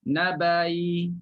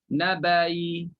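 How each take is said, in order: No difference in how they are said.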